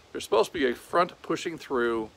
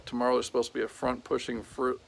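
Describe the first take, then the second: First: Said in the usual way. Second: Words tripping from fatigue; tired stumble. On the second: Real, not acted. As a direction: stumble over it, exhausted. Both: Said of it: "I'm tired and I can't talk".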